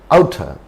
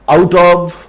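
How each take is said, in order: First: The word 'of' is reduced to a weak 'a'. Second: The word 'of' is said in full.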